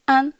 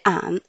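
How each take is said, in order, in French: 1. La syllabe est prononcée sans le ton dipping. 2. La syllabe est prononcée avec le ton dipping. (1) "an prononce an" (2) "En troisième temps, ça fait an"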